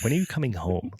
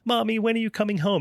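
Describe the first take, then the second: First: It sounds annoyed and impatient. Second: It sounds sweet and pleading.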